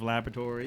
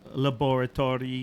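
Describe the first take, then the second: First: It is said in the speaker's ordinary accent. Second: It is said in Dexter's German-like accent.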